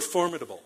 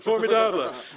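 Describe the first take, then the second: First: It is pronounced the English way. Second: It is pronounced the French way.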